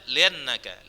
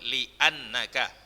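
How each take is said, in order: First: The hamzah is dropped and the sounds run together. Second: The hamzah is sounded with a clear glottal catch. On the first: The speaker calls it wrong. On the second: The speaker calls it right.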